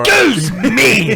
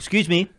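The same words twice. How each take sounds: First: It is said with exaggerated, furious anger. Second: It is said with mild, restrained anger.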